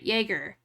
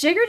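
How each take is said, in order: First: "Jaeger" with a Y sound, YAY-ger; corrected Jaeger. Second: "Jaeger" with an English J sound, like [name]; mispronounced Jaeger. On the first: Correcting the liquor's name, "Jaeger" said with a Y at the start. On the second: Doubting how the liquor's name goes, "Jaeger" said with a hard English J. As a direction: say "Jaeger" starting as in "jam". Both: Shown as a demonstration. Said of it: "doesn't sound right".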